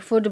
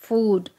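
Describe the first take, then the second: First: The vowel in the word is short. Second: The vowel in the word is long. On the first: The speaker calls it wrong. "फूड नहीं" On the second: The speaker calls it right. "Long vowel है"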